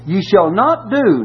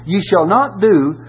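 First: Slow, with "not" hit hard; slow emphatic warning; stress on not. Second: Slow, higher, "not" pressed firmly; pointed reread for emphasis; stress on not again. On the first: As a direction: lean on "not" in "Ye shall not do". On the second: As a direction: weigh down "not" in "Ye shall not do". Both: Shown as a demonstration. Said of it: "now look, here's what ye shall not do".

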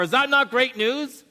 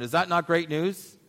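First: High, loud rhetorical question; preaching. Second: Said in the usual way. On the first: Acted. Pastor challenging his congregation, high and loud. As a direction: throw the question out to the hall.

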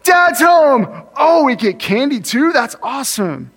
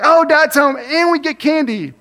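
First: Put-on high, loud, delighted kids greeting Dad; excited kids. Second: Put-on higher kid voice, only mildly pleased; routine kids' greeting. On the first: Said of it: "they were really surprised". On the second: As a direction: kids greet Dad like just another candy day, mildly pleased. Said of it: "it was like I was equal".

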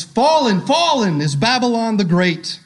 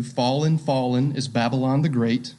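First: Higher, ringing announcement of the fall; mighty proclamation. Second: Quieter, lower reflective reading; framing the passage for the church, low and quiet; soft, low quote. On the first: A narrator's reading. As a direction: proclaim it like an angel from heaven. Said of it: "he called out with a mighty voice". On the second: Shown as a demonstration. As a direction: say it softly, almost to yourself. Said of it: "you could frame it like this".

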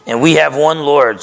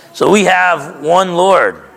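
First: Said in the usual way. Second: Slow emphatic refrain. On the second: Shown as a demonstration. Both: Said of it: "repeated refrain in the sermon".

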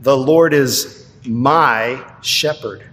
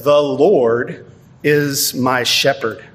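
First: Slow, with "my" stressed and personal; personal emphasis. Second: Said in the usual way. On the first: Shown as a demonstration. Pastor rereads the verse to stress "my" personally. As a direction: lean on "my" in "The Lord is my shepherd.". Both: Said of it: "Notice the personal emphasis of those words".

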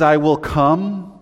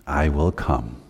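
First: "I" lifted and slowed, "I will come" drawn out; stress on I. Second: Said in the usual way. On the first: Shown as a demonstration. Preacher stresses that Jesus himself comes, with slow weight on "I". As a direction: lean hard on "I" as a personal promise. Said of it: "When he says". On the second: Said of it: "I like this one".

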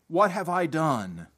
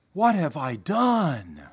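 First: Said in the usual way. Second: DONE drawn out slowly with a falling tone; slow, weighted question landing on DONE; better inflection. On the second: Shown as a demonstration. Preacher rereads the prophet's words with better inflection, stretching DONE. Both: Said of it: "with a better inflection".

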